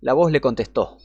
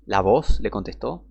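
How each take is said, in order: First: Said in the usual way. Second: Slow, disbelieving rise on voz; incredulous question. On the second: Shown as a demonstration. Preacher questioning a bad Bible translation, incredulous. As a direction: repeat it as if you can't believe it. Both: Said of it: "Acá están narrando mal las cosas".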